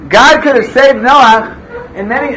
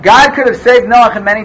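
First: It is spoken with a put-on French accent. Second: It is spoken in the speaker's ordinary accent.

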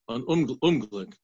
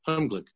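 First: The word begins with an extra 'unum' syllable. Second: The word begins directly with 'ung'. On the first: The speaker calls it wrong. "Did I say it wrong?" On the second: The speaker calls it right. "Yeah, misfortune, yeah. Unglück, yeah"

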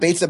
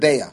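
First: The middle consonant is a ts sound. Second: The middle consonant is a glottal sound. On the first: "as opposed to a tzadi" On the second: "pronouncing with an ayin"

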